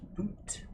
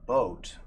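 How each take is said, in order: First: The vowel sounds closer to boot, Canadian-style. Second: The vowel sounds like standard English boat.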